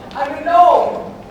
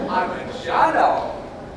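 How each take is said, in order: First: The G is silent, starting with an N sound. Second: The G is pronounced as a soft J sound. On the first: The speaker calls it right. "the G is silent" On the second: The speaker calls it wrong. "it's a soft G"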